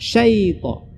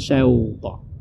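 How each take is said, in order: First: The first syllable has a short ai glide. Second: The first syllable has an au glide. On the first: The speaker calls it right. "Jadi bacanya menjadi uh, syaita" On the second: The speaker calls it wrong. "atau bahkan bukan syauta"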